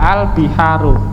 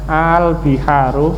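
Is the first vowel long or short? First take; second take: short; long. First: The first vowel is short. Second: The first vowel is drawn out long. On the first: It states that these are seas. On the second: It asks whether these are seas.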